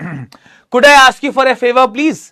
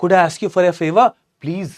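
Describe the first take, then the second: First: Higher, louder, very slow polite ask; polite request. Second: Slow, lovingly polite request; very politely. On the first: Shown as a demonstration. Teacher demos a polite request for a favor, slow and raised. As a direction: stretch the request out politely, lifting it high. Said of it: "बड़ा polite लग रहा है sentence". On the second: Acted. Asking a stranger on the train for his charger, slow and sweetly polite. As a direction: ask a stranger sweetly, taking your time. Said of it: "बड़े प्यार से ऐसे बोला, बहुत ही politely".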